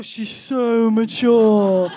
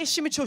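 First: "so mature" stretched out slow and loud; mock gushing emphasis. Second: Said in the usual way. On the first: Friend insists on his young girlfriend, "so mature" drawn out in mock gushing. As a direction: drag out and swell "so mature".

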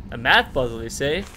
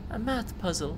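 First: Loud man voice. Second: Put-on higher, light girl's voice for Lena. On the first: Acted. Player voicing the man answering Lena, loud and hearty. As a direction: boom it back at her, hamming up the old man. Man repeats Lena's words. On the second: Player voicing Lena, asking about her math puzzle, in a higher girl voice. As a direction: read it as the young girl, pitched up. Lena's line, then man repeats.

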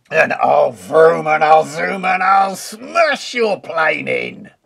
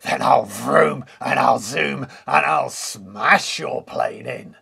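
First: Loud furious wolf threat; angry cry. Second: Wolf voice crying out, louder; a boastful wolf threat; cried. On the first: Furious wolf threatening the pigs, loud bellow. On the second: Wolf threatening Woody's plane, loud boastful cry. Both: Acted. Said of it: "cried the wolf".

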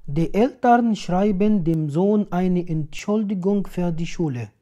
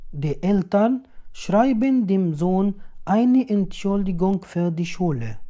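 No difference in how they are said.

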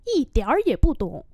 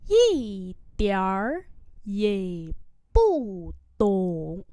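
First: Said in the usual way. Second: Syllable by syllable with pauses; slow model reading. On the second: Shown as a demonstration. Teacher modelling "don't understand at all" for learners, slowly. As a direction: stretch each syllable to show its tone.

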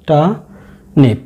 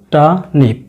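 First: টানিপ drawn out very slowly and clearly; slow model pronunciation. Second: Said in the usual way. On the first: Shown as a demonstration. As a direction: teach টানিপ slowly, syllable by syllable. (ধীরে টানিপ উচ্চারণ) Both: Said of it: "খেয়াল রাখবেন আর এর উচ্চারণ হয় না".

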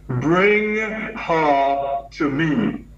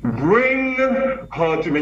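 First: Each word drawn out slowly, firm; slow commanding order. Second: Higher, slower booming command; big commanding voice. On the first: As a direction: give a slow, weighty command. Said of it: "he still had that commanding voice". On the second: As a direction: boom it out like a commanding elder. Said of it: "You know his big voice". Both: Retold or imitated.

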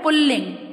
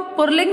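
First: "पुल्लिंग" with doubled l, "pul-ling"; correct pronunciation. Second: "पुल्लिंग" said "pur-ling" with an r; wrong pronunciation. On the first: Teacher showing what we say, correctly pronounced. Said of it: "इसको हम बोलते हैं". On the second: Teacher showing what we don't say, mispronounced. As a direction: swap the first l of "पुल्लिंग" for r. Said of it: "नहीं बोलते". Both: Shown as a demonstration.

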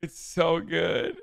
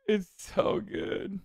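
First: Said in the usual way. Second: Whispered and slow, almost no voice; airy slow whisper of amazement; breathless hush. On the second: Real, not acted. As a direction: sigh it out in delight. Savoring the clip, said twice.

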